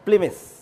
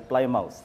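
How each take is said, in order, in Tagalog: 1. Binibigkas ang pangalan ayon sa karaniwang bigkas nito. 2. Binabasa ang pangalan nang eksakto ayon sa baybay nito. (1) "Yan ay Plymouth" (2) "Huwag niyong basahin Plymouth"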